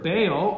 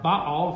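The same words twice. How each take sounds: First: The name has an anglicized English pronunciation. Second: The name has a Hebrew-style pronunciation.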